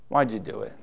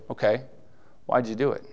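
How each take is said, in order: First: It sounds disappointed and reproachful. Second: It sounds warm and approving.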